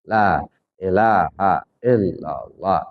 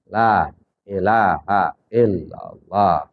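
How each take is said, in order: The two takes are said the same way.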